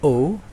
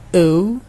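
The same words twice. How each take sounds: First: The letter is said in an American accent. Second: The letter is said in a British accent. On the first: "kalau di American O" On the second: "itu kalau di British ya"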